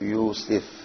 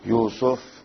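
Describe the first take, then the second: First: The vowel after the s is i. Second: The vowel after the s is u. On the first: "کسرہ" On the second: "سین پر زما"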